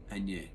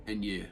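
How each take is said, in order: Both takes have the same delivery.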